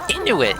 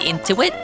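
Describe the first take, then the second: First: It has no n before the t, 'in-u-it'. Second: It has an extra n sound, like 'in-tu-it'. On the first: The speaker calls it right. "Inuit, not into it" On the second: The speaker calls it wrong. "I'm pronouncing that wrong"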